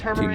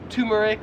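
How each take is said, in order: First: The first syllable sounds like 'term'. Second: The first syllable sounds like 'tumor'. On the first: This is the speaker's own American pronunciation. "so I would pronounce this" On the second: This is how Australians pronounce it. "in Australia, they would pronounce it as turmeric, like you have a tumor"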